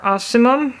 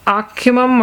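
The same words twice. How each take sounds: First: Ocimum with a soft s, AH-sih-mum; soft-c pronunciation. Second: Ocimum with a hard k, AH-kih-mum; hard-c pronunciation. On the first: Reviewer offers another guess at the basil genus, ocimum said with an s sound. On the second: Reviewer unsure how to pronounce the basil genus, ocimum said with a k sound. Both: Shown as a demonstration. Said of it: "however you pronounce it".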